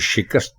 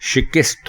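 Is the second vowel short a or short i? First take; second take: short a; short i. First: The second vowel is a short a. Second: The second vowel is a short i. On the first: The speaker calls it right. "काफ के ऊपर ज़बर है" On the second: The speaker calls it wrong. "काफ के नीचे भी ज़ेर डाल देते हैं"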